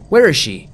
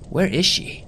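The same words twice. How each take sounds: First: Loud, higher frantic shout of where; screamed. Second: Higher, anxious inner question; worried. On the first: Acted. Mother demanding her missing daughter, screamed. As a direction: shriek it at the stranger. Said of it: "the woman screamed". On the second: A narrator's reading. Searching the empty road, higher anxious worry. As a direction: ask it in rising alarm. Narrator searching for missing girl.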